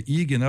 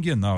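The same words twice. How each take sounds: First: "ignal" with no N before the g; self-correct to "ignal", plain i first; ignal without N. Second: "inguinal" with the N sounded. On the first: Host catching his slip, "ignal" without the N. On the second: Host defending his preferred word, "inguinal" with the N. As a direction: say "inguinal", nasal first syllable before the g. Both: Shown as a demonstration. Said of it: "eu gosto do N aí".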